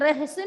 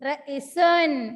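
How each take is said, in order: First: An h sound follows the first vowel. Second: No h sound follows the first vowel. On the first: The speaker calls it wrong. "റഹസുൻ അല്ല" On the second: The speaker calls it right. "അല്ല റസുൻ"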